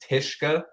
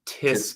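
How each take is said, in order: First: The consonant before the k is sh. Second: The consonant before the k is s. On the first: This is how the name is said in Lithuanian. "if we wanted to pronounce it the Lithuanian way, the S Z K is like a sh sound" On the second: This is how the name is said in American English. "I'm American. I grew up in Connecticut"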